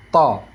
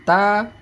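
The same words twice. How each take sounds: First: "ta" with tongue root raised; heavy emphatic T in "ta"; thick ta. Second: "Ta" with tongue root down; light, thin T in "Ta". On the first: Teacher reviewing two letters, "ta" said thick. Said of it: "Kita naikkan pangkal lidah". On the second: Teacher reviewing two letters, "Ta" said thin. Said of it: "ta yang dibaca tipis". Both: Shown as a demonstration.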